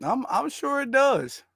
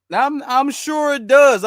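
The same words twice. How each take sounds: First: Sarcastic. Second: Sarcastic, louder. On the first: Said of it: "sarcastic repetition". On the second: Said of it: "sarcastic repetition louder". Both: Real, not acted.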